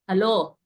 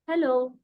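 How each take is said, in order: First: The word is said harshly and sharply. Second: The word is said softly and warmly. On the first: The speaker is unfriendly. "there is such a huge difference" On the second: The speaker is friendly. "it was soft and you felt very nice about it"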